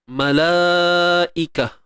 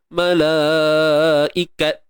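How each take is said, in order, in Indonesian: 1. Kata ini berakhir dengan bunyi h. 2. Kata ini berakhir dengan bunyi t. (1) "matikan ta ni dengan bunyi ha" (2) "Jangan panjang, ikat ke"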